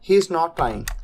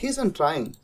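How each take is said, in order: First: 'Is not' is said as two full words. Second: 'Is not' is contracted into one word.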